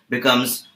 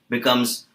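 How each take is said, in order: Both takes have the same delivery.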